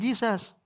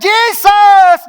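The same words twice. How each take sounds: First: It is said quietly. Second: It is shouted loudly.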